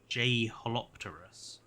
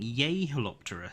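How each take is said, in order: First: The name starts with a 'j' sound. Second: The name starts with a 'y' sound. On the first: The speaker calls it wrong. "it sounds really awkward to pronounce it" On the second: The speaker calls it right. "I think Yeholopterus sounds better"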